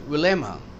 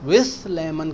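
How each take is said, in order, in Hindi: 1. 'with' के अंत में 'th' की ध्वनि छोड़ दी जाती है। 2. 'with' के अंत में 'th' की ध्वनि बोली जाती है। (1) "एल की वजह से टी एच ना कहें" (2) "कहने की जरूरत नहीं"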